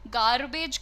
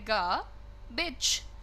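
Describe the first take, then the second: First: The r after the first vowel is clearly pronounced. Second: The r after the first vowel is barely pronounced. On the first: The speaker calls it wrong. "गार्बेज की जगह" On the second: The speaker calls it right. "आपको बोलना है गा बिच"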